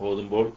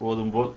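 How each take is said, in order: Both takes have the same delivery.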